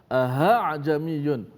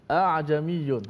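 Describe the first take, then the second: First: The second glottal stop is replaced by an h sound. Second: Only one glottal stop is pronounced; the second is dropped. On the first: "dimenukarkan hamzah kedua dengan ha ... tak boleh juga" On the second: "diborong satu hamzah saja. Betul, salah bacaan tu"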